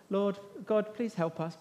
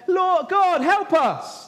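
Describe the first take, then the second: First: Timid plea. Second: Much higher and louder, desperate wail to God; terrified crying out. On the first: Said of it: "It's not just even like they're just". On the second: Sailors in the storm crying to their gods, terrified. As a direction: cry out for help as the boat breaks up. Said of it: "It's terrified crying". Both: Pretend.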